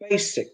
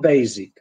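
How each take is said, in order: First: The middle consonant is a hissing s sound. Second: The middle consonant is a buzzing z sound. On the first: The speaker calls it right. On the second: The speaker calls it wrong.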